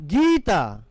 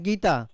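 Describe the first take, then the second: First: The first vowel is stretched out long. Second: The first vowel is said short and plain. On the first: The speaker calls it right. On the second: The speaker calls it wrong.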